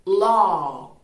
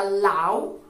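First: Law said loud with a long "aw" vowel, like "lo"; correct pronunciation. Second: Law with an "au" glide like "lau"; wrong pronunciation. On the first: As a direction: model law as "lo". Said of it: "su pronunciación correcta sería". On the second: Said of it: "que tampoco se pronunciaría law". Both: Shown as a demonstration.

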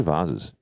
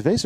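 First: "vases" said as VAH-ziz; pronounced VAH-ziz. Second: "vase" said as VAYSS; pronounced VAYSS. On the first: Appraiser offering guest the alternative, "vases" as VAH-ziz. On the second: Appraiser asking guest which is right, "vase" as VAYSS. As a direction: say "vase" to rhyme with base. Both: Shown as a demonstration. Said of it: "Is it vase or vases".

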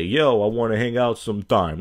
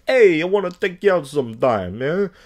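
First: Straight-up, casual pickup line. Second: Loud, higher-pitched Italian-guy pickup; hammed-up Italian guy calling out to a date; mock Italian guy. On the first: Acted. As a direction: put it to them directly, no hedging. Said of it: "when you're straight up". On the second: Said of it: "like a Italian guy shit".

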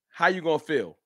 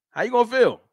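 First: Said in the usual way. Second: Taunting how you gonna feel, higher; teasing challenge. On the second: Shown as a demonstration. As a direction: needle the chat with it. Asking chat twice.

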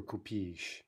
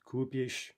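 First: Купишь with a stressed "и" at the end. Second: Купишь with a long stressed "у"; stem stress on Купишь. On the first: Teacher asking which stress is right, купишь stressed on last syllable. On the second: Teacher asking which stress is right, Купишь stressed on first syllable. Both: Shown as a demonstration. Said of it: "there's the problem again".

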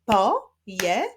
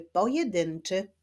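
First: "Pojedynczy" split as po... je... dyn... czy; syllable by syllable. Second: Said in the usual way. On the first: Shown as a demonstration. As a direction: clap out "Pojedynczy" in four separate beats, starting loud. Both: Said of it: "wyklaszczmy sylaby w wyrazie pojedynczy".

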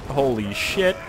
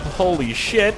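First: Said in the usual way. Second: Higher, louder startled holy shit; surprised exclaim. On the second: Real, not acted. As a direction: blurt Holy shit in shock.

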